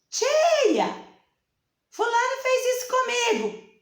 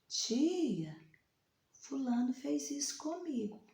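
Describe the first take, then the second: First: It is said loudly and shrilly. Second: It is said quietly and softly.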